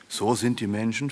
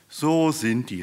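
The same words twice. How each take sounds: First: "So sind die Menschen" as a question, rising at the end. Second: "So sind die" called out higher, falling at the end; emphatic confirmation. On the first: Fat tench questions Mike about humans, "So sind die Menschen" asked with a rise. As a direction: ask "So sind die Menschen" with a lifted ending. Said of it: "fragte eine fette Schleie". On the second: Mike confirms to the tench, "So sind die" exclaimed high. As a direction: hit a high "So", then drop firmly on "So sind die". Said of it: "rief Mike". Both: A narrator's reading.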